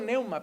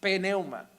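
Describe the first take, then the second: First: The word starts with an n sound, no p. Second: The word starts with a p before the n. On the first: The speaker calls it wrong. "Yo digo neuma" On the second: The speaker calls it right. "pero es pneuma. Es con P"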